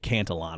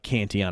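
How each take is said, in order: First: The L sounds in the name are pronounced. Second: The L sounds in the name are silent.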